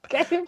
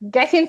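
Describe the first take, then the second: First: It is said with a Jamaican accent. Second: It is said with an American accent. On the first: The speaker calls it right. "instead of getting" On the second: The speaker calls it wrong. "that sounds so American, and I said getting"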